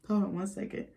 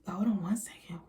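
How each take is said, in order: First: Said in the usual way. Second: Whispered, no voice at all. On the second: Real, not acted. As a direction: breathe it out as a whisper.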